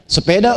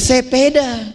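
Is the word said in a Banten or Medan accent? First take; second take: Banten; Medan. First: It is spoken in a Banten regional accent. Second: It is spoken in a Medan regional accent. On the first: "kita orang Banten bilang sepeda" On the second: "Teman kita yang Medan bilang sepeda"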